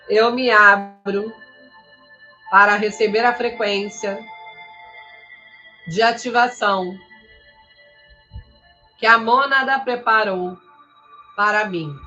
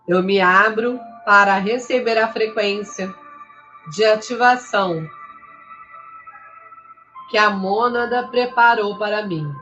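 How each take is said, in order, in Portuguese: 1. É falada em ritmo visivelmente mais lento. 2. É falada em ritmo mais rápido, normal.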